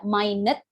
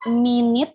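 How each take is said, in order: First: It is said like the word for tiny. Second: It is said like the time word, minute. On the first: It means extremely small. "ada minute yang artinya sangat kecil" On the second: It means a unit of sixty seconds. "Ada minute yang artinya menit"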